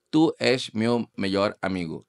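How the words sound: It is said with a Mozambican Portuguese accent. "portugués de Mozambique, con acento de Mozambique"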